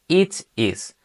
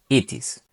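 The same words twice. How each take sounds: First: The two words are said separately. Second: The two words are run together as one. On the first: The speaker calls it wrong. "ya no sería" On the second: The speaker calls it right. "van a juntarse en la pronunciación y van a sonar como si fueran una sola"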